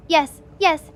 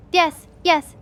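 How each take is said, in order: Both takes have the same delivery.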